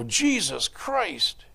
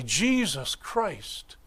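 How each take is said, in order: First: Slow, offhand exclamation of pain; careless curse. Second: Slow, hushed "Jesus Christ" said as a prayer; reverent. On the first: Hitting his thumb with a hammer, careless slow curse. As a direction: blurt "Jesus Christ" as a throwaway curse. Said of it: "you hit your thumb with a hammer and you go". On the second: Believers speaking the name, slow and reverent. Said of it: "same name, same syllables". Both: Retold or imitated.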